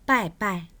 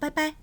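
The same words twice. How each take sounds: First: Each syllable falls sharply in pitch. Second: The syllables do not fall sharply in pitch. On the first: "빠이빠이의 성조가 사성으로 나오는데요" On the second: "이 성조의 구애를 받지는 않습니다... 이렇게도 인사합니다"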